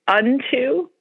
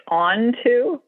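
First: Said in the usual way. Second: Onto with open AH, ON-too; husband's pronunciation. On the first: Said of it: "if the word is unto". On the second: Retold or imitated. Imitating husband from Wisconsin, unto becomes ON-too. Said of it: "he'll say onto".

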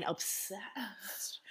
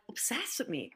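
First: "obsessed" whispered and stretched out; emphatic OBSESSED. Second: Said in the usual way. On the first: Shown as a demonstration. Telling co-host how fixated he was, "obsessed" in a drawn-out whisper. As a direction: breathe out "obsessed" slowly for emphasis. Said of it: "like, I mean obsessed". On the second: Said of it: "I mean obsessed".

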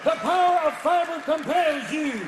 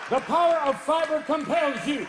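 First: Even slower, louder ritual chant; exorcist command slower. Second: Loud, booming ritual chant; exorcist command. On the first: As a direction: drag out the decree. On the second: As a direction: proclaim with force. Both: Acted. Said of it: "priest to do a rectal exorcism".

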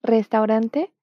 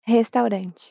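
First: "Restaurante" with a rolled R and a full final E; Spanish "Restaurante", trilled R. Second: "restaurante" with an H-like R and a final CH sound; Portuguese "restaurante", breathy R, ending in "chi"; "restaurante" Brazilian style; Portuguese accent. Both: Shown as a demonstration. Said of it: "solo cambia el acento".

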